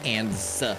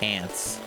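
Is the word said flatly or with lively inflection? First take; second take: lively; flatly. First: The word is said with lively, exaggerated inflection. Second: The word is said flatly, without extra inflection. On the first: The speaker calls it right. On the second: The speaker calls it wrong.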